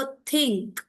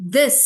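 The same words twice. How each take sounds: First: "think" with breathy unvoiced th. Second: "this" with buzzing voiced th, a bit louder. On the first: Teacher contrasting voiceless "think" for students. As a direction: say "think" with no throat buzz. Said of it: "और फिर बोलो". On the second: Teacher has students feel throat vibration, "this" voiced. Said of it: "अपना हाथ रखें और बोलें". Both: Shown as a demonstration.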